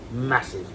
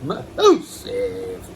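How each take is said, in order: First: Said in the usual way. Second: Massive in a squealing falsetto, much higher; squeaky high massive. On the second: Acted. Koi keeper boasting about his fish, squealing high. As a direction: squeal Massive like an excited kid. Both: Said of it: "repeat with contrast".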